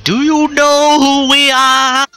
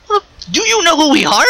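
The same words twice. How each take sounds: First: Slow, drawn-out New York bluster, higher and louder; thick New York accent. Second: Pitched-up New York tough guy, quick; Bully Ray impression. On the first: Retold or imitated. Bubba Ray puffing up at the upstarts in slow, loud New York accent. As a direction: lean hard into the New York accent, stretching every word. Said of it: "That thick New York accent of his". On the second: Bubba challenging the newcomers in a high New York accent. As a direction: throw it out like a brash New York brawler. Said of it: "He says it in the whole Bully Ray fashion".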